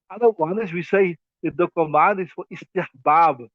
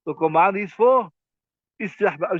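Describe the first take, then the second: First: Said in the usual way. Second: "for" held, a pause, then "istihbab," set apart; pause before istihbab. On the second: Shown as a demonstration. Teacher to students, pausing to stress "istihbab,".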